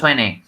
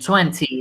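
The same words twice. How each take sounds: First: The t after the n is dropped. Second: The t after the n is clearly pronounced. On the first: "it's very common in Canadian English, actually, to elide the T" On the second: "instead of saying twenty"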